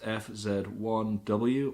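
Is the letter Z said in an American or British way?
British. Z is said the British way, as zed.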